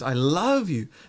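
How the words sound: The stress falls on the word love. The feeling is love, not hate or regret. "The love is now stress. It's not hate or, you know, regret something"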